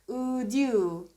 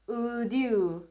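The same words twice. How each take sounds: No difference in how they are said.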